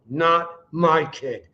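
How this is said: It is said fiercely, through gritted teeth. It is a vow to fight for the child. "saying not my kid while gritting your teeth"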